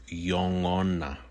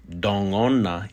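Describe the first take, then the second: First: "yongona" with y at the start; Y form. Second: "dongona" with d at the start; D form. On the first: Teacher contrasts two forms, "yongona" with initial y. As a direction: begin "yongona" on a y glide. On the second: Teacher contrasts two forms, "dongona" with initial d. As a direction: begin "dongona" on a d, not y. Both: Shown as a demonstration. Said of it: "instead of yongona".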